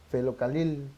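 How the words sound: The word is said with l in place of r. "no pronuncian la, la R"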